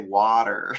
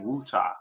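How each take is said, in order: First: It is said with an American accent. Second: It is said with a British accent.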